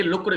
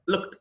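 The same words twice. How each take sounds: First: లుక్డ్ as two-syllable "look-ud"; wrong "d" ending. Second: లుక్డ్ as one-syllable "lookt"; "t" ending. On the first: Teacher showing learners the mistake, లుక్డ్ as "look-ud". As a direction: add "ud" to the end of లుక్డ్. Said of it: "కాదు". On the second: Teacher correcting learners, లుక్డ్ as "lookt". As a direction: end లుక్డ్ on crisp "kt". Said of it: "లుక్డ్ కాదు". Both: Shown as a demonstration.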